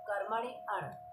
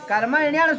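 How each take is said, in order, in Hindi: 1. शब्द अलग-अलग दो शब्दों की तरह बोले जाते हैं। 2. शब्द जुड़कर एक शब्द की तरह बोले जाते हैं। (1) "इसको अलग करेंगे तो" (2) "कर्मण्यण सूत्र है"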